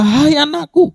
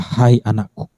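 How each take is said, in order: First: Much higher, ringing call to a daughter; proclaiming call. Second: Tender call. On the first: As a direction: lift it up like a joyful proclamation. Jesus voiced calling the woman. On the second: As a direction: say it like a father to his child. Jesus voiced gently at close. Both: Acted.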